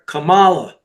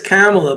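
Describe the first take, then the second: First: The stress is on the second syllable. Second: The stress is on the first syllable. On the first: "you accent the penultimate syllable. So that would make her Kamala" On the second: "I think it's Kamala"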